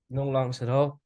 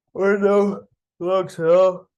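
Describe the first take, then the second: First: Said in the usual way. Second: High, loud and slow, stretching out all; emphatic drawn-out no. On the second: Real, not acted. To viewers, insisting on no trades: slow loud emphasis. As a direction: lean hard on no longs at all, slowly. Stressing his trading conclusion.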